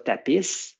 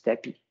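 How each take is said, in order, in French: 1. Le s final est prononcé. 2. Le s final reste muet. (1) "je ne dis pas tapis" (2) "quand je dis tapis"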